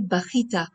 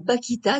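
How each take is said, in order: First: The middle consonant is a raspy kh sound. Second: The middle consonant is a hard k sound. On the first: This is the pronunciation the rule requires. The speaker calls it right. "devrait être prononcé bachita" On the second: This is the everyday popular pronunciation. The speaker calls it wrong. "le langage populaire ... le prononce généralement bakita"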